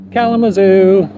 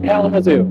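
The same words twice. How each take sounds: First: Kalamazoo repeated higher with a comic lift; Kalamazoo, higher and amused. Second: Said in the usual way. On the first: Real, not acted. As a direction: savour the funny name Kalamazoo. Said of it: "repeated with amusement". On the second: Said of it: "Kalamazoo. (repeated for effect)".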